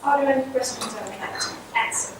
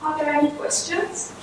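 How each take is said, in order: First: "Are there any questions" said level with no rise on "questions", running straight on, fast, into "I would like to answer"; no final rise. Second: "Are there any questions?" with the pitch rising clearly on the final word "questions"; question rise. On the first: Lecturer demonstrates continuation intonation, no rise on "questions", quick. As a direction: keep "questions" flat and push on quickly so it sounds unfinished. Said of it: "this final rise is absent".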